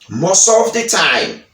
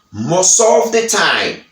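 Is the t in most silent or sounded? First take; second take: silent; silent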